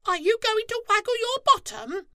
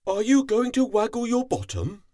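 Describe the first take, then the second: First: Very high, loud, fast squeaky squirrel voice; cheeky squirrel calls out; Squirrel calling. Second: High, loud, fast cat voice calling out; playful cat calls out. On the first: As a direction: chatter it like a squirrel. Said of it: "flicked his tail and called". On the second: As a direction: call across lazily like a cat. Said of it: "yawned and called". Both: A narrator's reading.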